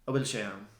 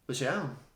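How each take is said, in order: First: The opening particle loses its n sound. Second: The opening particle is left out entirely. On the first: It sounds a little more relaxed. "but drop the N" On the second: It sounds even more relaxed. "just say"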